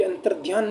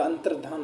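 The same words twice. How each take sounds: First: अंतर्ध्यान with an extra ध्या glide, as the wrong form; wrong pronunciation. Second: अंतर्धान with a plain short धान, low and soft; correct pronunciation. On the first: Teacher to students showing the wrong spoken form. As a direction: say अंतर्ध्यान stretching the dhyaan as the mistake. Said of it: "नहीं होता". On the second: Teacher to students giving the correct form, softly. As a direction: say अंतर्धान cleanly, no y glide. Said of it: "अंतर्धान होता है". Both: Shown as a demonstration.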